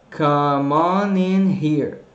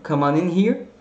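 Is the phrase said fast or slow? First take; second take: slow; fast. First: The phrase is spoken at a slow speed. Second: The phrase is spoken at a fast speed. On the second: "Rápido"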